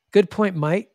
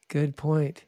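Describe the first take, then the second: First: Louder, higher Australian "mate"; punchy Aussie accent. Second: Said in the usual way. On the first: Retold or imitated. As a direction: imitate an Australian bloke. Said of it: "They got the Aussie accent". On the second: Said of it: "I've had many guys say".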